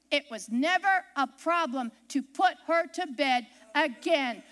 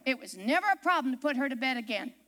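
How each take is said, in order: First: "It was never a problem to put her to bed again" spaced out, low and deliberate. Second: Said in the usual way. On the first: Real, not acted. Repeats it slowly for emphasis.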